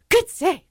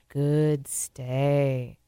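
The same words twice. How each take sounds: First: It is said in an excited, high-energy voice. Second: It is said in a calm, low-energy voice. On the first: The dog is stirred up to move. The speaker calls it wrong. "because it gets the dog up" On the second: The dog should keep holding its position. The speaker calls it right. "you would tell them as they're holding it"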